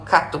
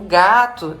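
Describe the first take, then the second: First: The word starts with a voiceless k sound. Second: The word starts with a voiced g sound. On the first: The speaker calls it wrong. "em vez de falar é, gato, fala cato" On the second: The speaker calls it right. "Você só demonstrou como é a forma correta de dizer"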